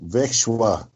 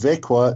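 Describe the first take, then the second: First: The middle has a sh sound, ending shwa. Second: The middle sounds like k, ending kwa. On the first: The speaker calls it wrong. "not Vekshwa" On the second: The speaker calls it right. "It's pronounced Vekwa"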